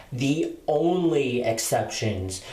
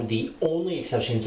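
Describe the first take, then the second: First: Slow, leaning hard on "only" in "the only exceptions"; stress on ONLY. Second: Said in the usual way. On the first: Shown as a demonstration. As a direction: drag out "only" to insist. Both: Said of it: "when I say only exceptions".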